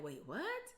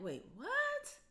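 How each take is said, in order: First: Said in the usual way. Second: High, incredulous wait what; shocked disbelief. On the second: Retold or imitated. Mother hearing the complaint again, stunned high disbelief.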